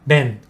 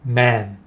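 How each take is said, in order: First: The vowel is short, with the jaw barely lowered. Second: The vowel is longer, with the jaw lowered. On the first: The speaker calls it wrong. "아니고" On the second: The speaker calls it right. "턱을 내리면서 조금 길게 man 이렇게 발음하시면 됩니다"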